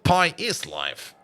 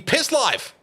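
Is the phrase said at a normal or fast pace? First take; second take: normal; fast. First: It is said at a normal, unhurried pace. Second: It is said quickly, with the words run together.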